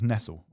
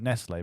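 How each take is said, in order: First: The name is said with an English-style pronunciation. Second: The name is said closer to its original pronunciation. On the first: This is how the name used to be said. "it was like anglicized" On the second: This is how the name is said now. "because that's more close"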